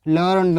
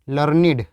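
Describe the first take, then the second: First: It is said as one syllable, ending in d. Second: It is said as two syllables, ending in id. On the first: It is the past form of the verb to learn. "Main verb की third form की तरह use किया जा रहा है" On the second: It means scholarly or wise. "As adjective की तरह प्रयोग किया जाएगा"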